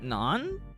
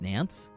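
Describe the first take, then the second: First: The word ends on the vowel, no consonant. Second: The word ends with a clear s sound. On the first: "Is that more correct? Close" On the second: "How is this actually pronounced?"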